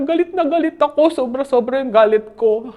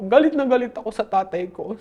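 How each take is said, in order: First: Retold angry outburst. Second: Said in the usual way. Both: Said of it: "Sabi niya".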